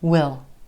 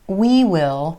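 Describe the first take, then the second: First: It is a contraction with a reduced vowel. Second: It is said as two full words. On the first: "most of the time it's gonna reduce to will" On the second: "We will can become we'll"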